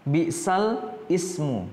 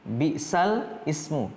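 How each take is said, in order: First: The words are said separately, as written. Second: The same.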